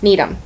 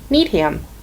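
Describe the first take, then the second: First: It is said in the reduced local way. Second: Every syllable is sounded out as spelled. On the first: This is how locals say it. The speaker calls it right. "And that's" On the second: This is how an outsider would read it. The speaker calls it wrong. "if you spelled this, sounded this out, like you were taught when you were little, you would say"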